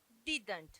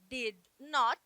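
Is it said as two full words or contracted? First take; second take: contracted; two words. First: It is said as one short contracted word. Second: It is said as two separate full words. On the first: "você fala didn't. É uma palavra só" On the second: "Ao invés de falar did not"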